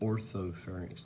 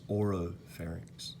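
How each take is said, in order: First: The word begins with 'ortho', with a 'th' sound. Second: The word begins with 'oro', with no 'th' sound. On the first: The speaker calls it wrong. "A lot of students will say orthopharynx sometimes" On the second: The speaker calls it right. "It's oropharynx"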